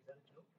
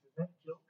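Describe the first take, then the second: First: "is that a joke?" dropped almost to a murmur; quiet rhetorical question. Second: Said in the usual way. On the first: Shown as a demonstration. Pastor quietly asks the congregation if Jesus jokes. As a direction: ask it under the breath.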